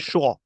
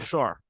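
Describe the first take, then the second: First: The word is said in a British accent. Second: The word is said in an American accent. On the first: "If you like to speak British accent, the sound will be sure" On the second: "If you like to speak the American accent, the sound will be sure"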